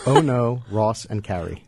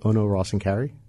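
First: The phrase is spoken slowly and clearly. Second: The phrase is spoken quickly, run together. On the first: "Say that slower" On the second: "that's like five syllables that you said in literally one"

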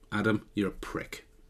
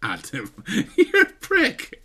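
First: It is said flatly and seriously. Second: It is said with a laugh, jokingly.

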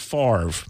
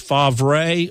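First: The name is said differently from how it looks. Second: The name is said as it looks written. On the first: "like the pronunciation in the Southern Miss media guide" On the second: "Do we pronounce it like it's spelled"

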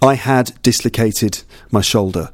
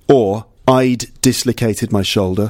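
First: The word 'had' is fully pronounced. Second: The word 'had' is contracted to 'I'd'. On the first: "with all the words completely pronounced"

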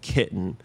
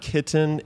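First: The middle T becomes a glottal stop. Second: The middle T is clearly pronounced. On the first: "you're not really saying the letter T. It's just this closure of the glottis" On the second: "it's not kitten"

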